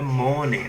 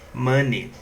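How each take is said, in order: First: It is pronounced in a Portuguese-influenced way. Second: It is pronounced the way English speakers say it. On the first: The speaker calls it wrong. "a pronúncia não é money" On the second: The speaker calls it right. "a pronúncia é money"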